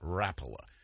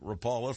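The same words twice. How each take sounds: First: The first syllable sounds like the word wrap. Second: The first syllable does not sound like wrap. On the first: The speaker calls it right. "like it's spelled with a W before the first R. Rapala. That's the proper pronunciation" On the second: The speaker calls it wrong. "I called it Rapala for years myself"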